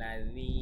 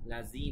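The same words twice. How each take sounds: First: লাযি said with a light, soft th as in this; soft th sound. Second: লাযি said with a hard z like English zoo; wrong z sound. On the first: Teacher showing students the correct light th in লাযি. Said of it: "লাযি পাতলা করে, লাযি এভাবে". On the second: Teacher showing students the mistaken z in লাযি. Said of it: "লাযি বলা যাবে না". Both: Shown as a demonstration.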